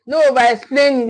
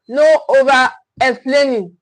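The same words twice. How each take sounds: First: Said in the usual way. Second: Slowed, weighted "No over explaining."; measured, emphatic rule. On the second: Shown as a demonstration. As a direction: lean on "No" and let each word land slowly. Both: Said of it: "repeated for emphasis".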